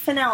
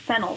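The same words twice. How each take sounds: First: It is said unlike the vegetable name. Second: It is said like the vegetable name. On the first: This is the form heard as the name's pronunciation. "when is it fennel?" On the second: This is the form assumed all along. "I thought it was fennel this whole time, like the vegetable"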